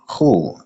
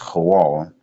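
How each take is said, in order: First: The word is said with one syllable. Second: The word is said with two syllables. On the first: This is the Yiddish form. "The pronunciation that you see is cool. That is Yiddish" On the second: This is the original Hebrew form. "it's the real Paleo Hebrew"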